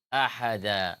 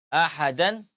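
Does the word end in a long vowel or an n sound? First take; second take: long vowel; n sound. First: The word ends with a long a vowel. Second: The word ends with an n sound. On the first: The reading stops at this word. "menjadi alif" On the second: The reading continues past this word. "suara tanwin"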